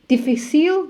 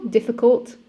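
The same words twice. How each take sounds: First: "Difficile" said the French way, stress on the last syllable; French accent. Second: Said in the usual way. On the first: Shown as a demonstration. Coach showing how to say words in France, French accent. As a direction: give "Difficile" a French lilt. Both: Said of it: "just put a French accent".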